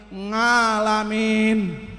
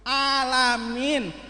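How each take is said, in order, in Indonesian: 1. Kata itu diawali dengan bunyi ng. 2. Kata itu diawali dengan vokal biasa.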